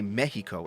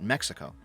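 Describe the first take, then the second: First: The word is said with a Spanish pronunciation. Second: The word is said with an English pronunciation. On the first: This is how Spanish speakers say it. The speaker calls it right. "That's why they say Mexico" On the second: This is not how Spanish speakers say it. The speaker calls it wrong. "and not Mexico"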